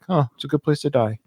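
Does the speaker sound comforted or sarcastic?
comforted. It is said in a comforted tone.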